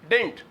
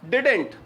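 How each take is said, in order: First: It is squeezed down further into one short syllable. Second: The two words are joined into one syllable pair. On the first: "इसी का एक informal contraction भी है" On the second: "डिड नॉट को मिला के क्या बोलते हैं? डिडेंट"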